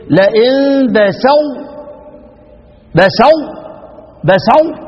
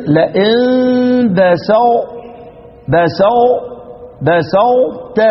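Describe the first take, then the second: First: لئن بسطت strained, stuck on بسو; mocking overdone ط. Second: لئن بسطت very slow, the ط barely touched; correct ikhfa demo. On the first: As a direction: imitate someone straining over the ط in بسطت. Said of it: "واحد يتعب نفسه". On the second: Shown as a demonstration. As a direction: slide from a hinted ط down into ت in بسطت. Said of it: "اطلع بلسانك".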